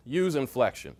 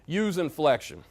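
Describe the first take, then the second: No difference in how they are said.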